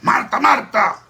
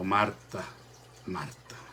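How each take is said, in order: First: The name is repeated in a harsh, scolding tone. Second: The name is repeated in a gentle, kind tone. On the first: It is a stern rebuke. The speaker calls it wrong. "No es" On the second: It is a loving, kind reproach. The speaker calls it right. "con ese tono de voz ... una reprensión amable, cariñosa"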